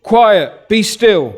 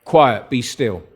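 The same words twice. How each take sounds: First: Loud, high rebuke to the storm; Jesus rebuking the wind, loud and high; rebuking command. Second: Low, slow, calm command; Jesus calming the storm, low and slow. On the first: Retold or imitated. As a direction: command the waves to hush, raised voice. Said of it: "rebuked the wind". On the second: Shown as a demonstration. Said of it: "Jesus just says a few words".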